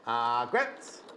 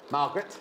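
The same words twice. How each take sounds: First: "Margaret" lower, drawn out, with foreign colouring; Scandinavian-style name. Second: Said in the usual way. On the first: Shown as a demonstration. Host retrying a bag name, light Scandinavian accent.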